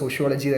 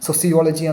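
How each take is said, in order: First: The consonant after the first vowel is 'sh'. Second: The consonant after the first vowel is 's'. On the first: "നമ്മളെല്ലാവരും സോഷ്യോളജി സോഷ്യോളജി എന്ന് പറഞ്ഞത് കൊണ്ട്" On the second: "സോസിയോളജി എന്നൊക്കെയാണ് നമ്മൾ യഥാർത്ഥത്തിൽ അത് ഉച്ചരിക്കേണ്ടത്"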